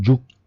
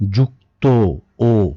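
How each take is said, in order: First: The word ends on a bare consonant. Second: The word ends with an o vowel. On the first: The speaker calls it wrong. "কোথাও যুক্ত না" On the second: The speaker calls it right.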